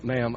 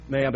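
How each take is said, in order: First: Sincere. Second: Said in the usual way. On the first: Retold or imitated. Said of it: "with the most sincerity and meaningfully". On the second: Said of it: "I said it with the most sincerity".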